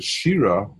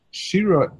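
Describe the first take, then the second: First: Said in the usual way. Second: Shira said much higher and stressed; emphatic Shira. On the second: Shown as a demonstration. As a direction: lift Shira up high to stress it. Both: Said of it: "the emphasis is on the expression".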